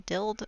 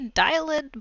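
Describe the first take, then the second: First: The vowel is short, like in 'did'. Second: The vowel is long, like in 'dial'. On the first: Other people pronounce it this way. The speaker calls it wrong. "some people say Dild. I think Dild sounds really awkward" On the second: This is the pronunciation the speaker prefers. The speaker calls it right. "I would say Dialed"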